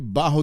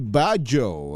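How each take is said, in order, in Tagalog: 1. Ang gitnang katinig ay parang tunog h. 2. Ang gitnang katinig ay parang tunog j. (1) "biro ko lang po yung Baho di Masinloc" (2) "para uh, magandang uh, pronunciation"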